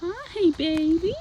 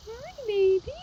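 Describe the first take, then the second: First: High, slow cooing greeting. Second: Very high sing-song coo. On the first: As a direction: coo a hello to a pet. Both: Real, not acted. Greeting the horse softly.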